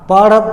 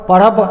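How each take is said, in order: No difference in how they are said.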